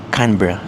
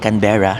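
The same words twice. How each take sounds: First: It is pronounced differently from its spelling. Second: It is pronounced just as it is spelled. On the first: The speaker calls it right. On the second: The speaker calls it wrong.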